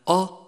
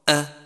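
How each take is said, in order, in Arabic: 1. تُنطق الهمزة مفخّمة وثقيلة. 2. تُنطق الهمزة مرقّقة وخفيفة.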